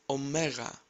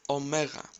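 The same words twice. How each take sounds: Both takes have the same delivery.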